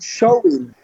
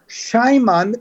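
First: The word is said without an 'm' sound. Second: The word is said with an 'm' sound. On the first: The speaker calls it right. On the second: The speaker calls it wrong.

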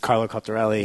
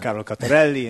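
First: The name is said in a plain accent. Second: The name is said in an Italian accent.

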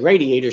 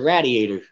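First: Radiator is said the usual American way. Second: Radiator is said with a Philly accent.

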